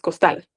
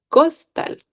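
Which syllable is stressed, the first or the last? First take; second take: last; first. First: The stress is on the last syllable. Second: The stress is on the first syllable. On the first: The speaker calls it right. "Aquí es costal. Entonces, por eso es tal" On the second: The speaker calls it wrong. "Imagínense que tuviera tilde en la cos, costal. Sonaría raro"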